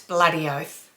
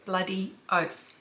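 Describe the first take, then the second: First: It is said in an Australian accent. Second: It is said in a non-Australian accent. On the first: The speaker calls it right. "B L U D D is how we enunciate it" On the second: The speaker calls it wrong. "if you're not from Australia, you'll say"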